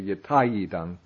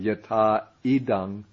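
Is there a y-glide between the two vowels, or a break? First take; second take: y-glide; break. First: A y-glide joins the two vowels smoothly. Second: The two vowels meet with no glide between them. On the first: The speaker calls it right. "it goes more smoothly to say" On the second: The speaker calls it wrong. "Instead of saying"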